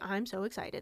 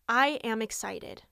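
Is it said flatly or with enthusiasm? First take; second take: flatly; with enthusiasm. First: It is said flatly, without meaning it. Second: It is said with real enthusiasm.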